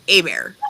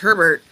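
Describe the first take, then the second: First: The name is said with French sounds. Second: The name is said with English sounds.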